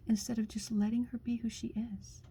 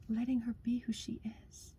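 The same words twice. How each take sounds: First: Said in the usual way. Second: Soft whispered echo. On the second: Real, not acted. Echoing to the listener what a woman needs, in a soft whisper. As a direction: repeat it under the breath, much softer. Softly echoes her own line.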